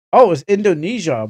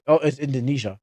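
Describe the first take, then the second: First: Louder, higher oh of discovery; a penny-drop exclamation; sudden realization. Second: Said in the usual way. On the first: Real, not acted. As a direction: catch your own mistake out loud. Realizes the anime's origin.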